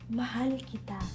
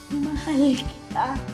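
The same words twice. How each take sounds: First: It is said lightly, indirectly and slowly. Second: It is said heavily, indirectly and slowly.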